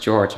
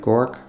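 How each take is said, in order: First: It sounds like the English name George. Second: It is said with a German vowel and ending. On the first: The speaker calls it wrong. "I thought it was George" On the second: The speaker calls it right. "but it's it's German"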